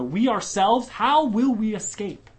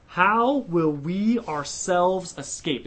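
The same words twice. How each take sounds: First: "we ourselves" pushed up and louder, then a slower "how will we escape"; preacher driving home the point, emphatic; stress on WE OURSELVES. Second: Slow, weighty reading of the question; the verse read slowly with solemn weight; emphatic question. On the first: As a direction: hit "we ourselves" hard and lift the question. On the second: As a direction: lean into every word slowly. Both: Shown as a demonstration. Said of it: "It's emphatic".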